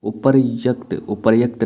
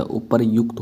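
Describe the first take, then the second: First: उपर्युक्त with "yakt" at the end; short "a" replacing "u" in उपर्युक्त; wrong form. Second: उपर्युक्त with "yukt" at the end; correct form. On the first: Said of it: "नहीं होता". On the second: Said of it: "होता है". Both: Shown as a demonstration.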